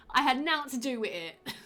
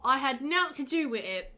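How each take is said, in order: First: Put-on Cockney, slightly higher; ridiculous Cockney accent. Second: Lightly put-on Cockney, a bit higher; mock Cockney. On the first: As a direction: play up a silly Cockney line. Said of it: "read this in this ridiculous accent". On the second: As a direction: read it in a jokey Cockney accent. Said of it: "Is that Cockney?". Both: Shown as a demonstration.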